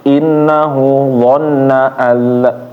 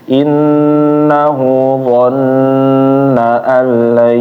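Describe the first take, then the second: First: The doubled n is pressed but cut short. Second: The doubled n is pressed and held a little. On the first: The speaker calls it wrong. "kalau ditekan doang" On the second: The speaker calls it right. "ditahan sedikit"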